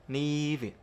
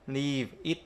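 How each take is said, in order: First: "leave it" run together as "lee-vit"; linked sounds. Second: "leave it" as two separate words; no joining between "leave" and "it"; unlinked. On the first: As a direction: hold the vowel of LEAVE and start IT with its v. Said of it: "ta đọc như vậy". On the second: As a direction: finish the v of LEAVE, then start IT fresh. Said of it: "không bao giờ đọc là". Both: Shown as a demonstration.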